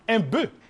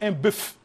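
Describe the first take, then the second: First: The final f sound is left silent. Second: The final f sound is clearly pronounced. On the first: The speaker calls it wrong. "on ne dit pas un bœuf" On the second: The speaker calls it right. "on dit un bœuf"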